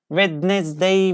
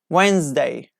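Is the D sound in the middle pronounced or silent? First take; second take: pronounced; silent. First: The middle D sound is pronounced. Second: The middle D sound is silent. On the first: The speaker calls it wrong. "Wednesday we don't say" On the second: The speaker calls it right. "we have D there and we don't pronounce it"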